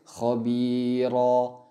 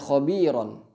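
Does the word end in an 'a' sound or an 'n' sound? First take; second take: a sound; n sound. First: The word ends with a short 'a' vowel. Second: The word ends with an 'n' sound. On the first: The reader stops on this word. "kita menggantikannya dengan alif" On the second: The reading continues without stopping. "kalau kita sambung"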